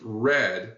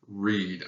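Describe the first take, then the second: First: The word sounds the same as 'red'. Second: The word sounds the same as 'reed'. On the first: It is the past tense. "can also be pronounced read when it's the past tense... this word red is a homophone with the color" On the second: It is the present tense. "the present form, kind of the normal version of this verb read... it's a homophone with the word reed"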